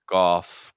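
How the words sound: The word sounds open and clear. The speaker calls it right. "keep that same level of openness"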